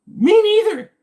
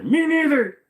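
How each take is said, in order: First: Very high, very loud squealed echo; random commenter. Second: High, loud mock commenter voice; random commenter. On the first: Acted. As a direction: shriek it as an over-eager mock commenter. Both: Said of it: "just your random commenter".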